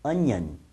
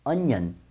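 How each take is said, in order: Both takes have the same delivery.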